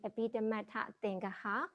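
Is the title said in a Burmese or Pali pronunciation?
Burmese. The title is said in Burmese-style pronunciation.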